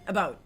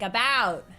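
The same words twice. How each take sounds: First: It is said with a Canadian accent. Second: It is said with a Californian accent.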